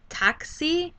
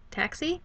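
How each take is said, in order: First: "taxi" said slowly in a Spanish way; Spanish pronunciation. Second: Said in the usual way. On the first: Shown as a demonstration. Teacher sounding out the word for taxi, Spanish pronunciation. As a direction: stretch "taxi" into two slow Spanish-style syllables. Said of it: "I pronounced it in Spanish". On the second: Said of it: "I don't know why I pronounced it".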